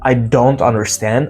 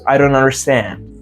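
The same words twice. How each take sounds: First: The T in don't is pronounced. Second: The T in don't is dropped. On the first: "It's not" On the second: "if you want to sound more native"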